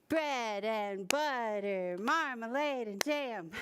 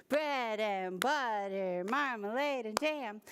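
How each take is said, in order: No difference in how they are said.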